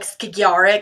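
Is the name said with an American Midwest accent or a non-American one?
non-American. The name is said without an American Midwest accent. The speaker calls it right. "It's probably like Skagerrak or something like that"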